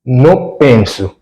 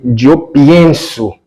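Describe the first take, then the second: First: "penso" without the i, said slowly as the form to avoid; slow contrast. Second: Slow, stressing "pienso" with ie. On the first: Teacher contrasts Portuguese "penso" with Spanish "pienso". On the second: Teacher shows the correct Spanish form slowly. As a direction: say "yo pienso", stretching the "ie". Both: Shown as a demonstration. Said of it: "em espanhol você tem que falar assim".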